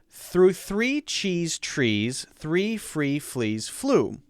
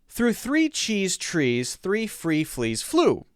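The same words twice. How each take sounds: First: It is said at a slower pace. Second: It is said at a faster pace.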